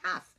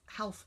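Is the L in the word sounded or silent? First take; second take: silent; sounded. First: The L is silent in the word. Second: The L is pronounced in the word. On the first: It is said the normal everyday way. The speaker calls it right. "I say half" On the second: It is said the way it is spelled, to remember the spelling. The speaker calls it wrong. "I don't talk like that"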